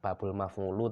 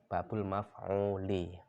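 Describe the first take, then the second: First: The last word ends with a 'u' vowel. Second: The last word ends with an 'i' vowel. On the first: The speaker calls it wrong. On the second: The speaker calls it right. "tapi babul maf'uli"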